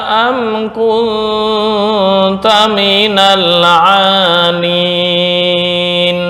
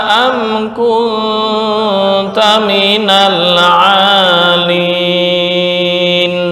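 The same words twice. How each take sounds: The two takes are said the same way.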